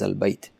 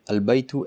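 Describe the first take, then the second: First: The word ends on a bare consonant. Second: The word ends with a short vowel. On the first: "pause at the last letter" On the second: "Read the word al-baytu as"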